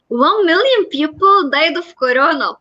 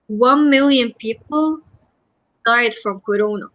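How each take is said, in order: First: The voice sounds excited and upbeat. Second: The voice sounds loud, precise and sad. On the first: The speaker seems pleased by the deaths. The speaker calls it wrong. "Imagine someone having this excitement in their voice" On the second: The speaker is affected by the deaths. The speaker calls it right. "My voice is loud, my voice is precise, but doesn't show any happiness or excitement. It shows that I'm sad"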